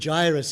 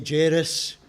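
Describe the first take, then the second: First: The name is said the English way. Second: The name is said the Scottish way.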